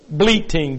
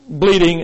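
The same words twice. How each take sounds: First: "bleating" said with a clear t sound, the fix; corrected word. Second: "bleeding" said with a clear d sound, the slip; mistaken word. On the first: Preacher correcting his slip for the congregation, "bleating" with a clear t. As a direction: says "bleating" with a t in the middle, deliberately corrected. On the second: Preacher slipping on the word before correcting himself, "bleeding" with a d. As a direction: says "bleeding" with a plain d in the middle, as first blurted out. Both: Real, not acted. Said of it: "B L E E T I N G".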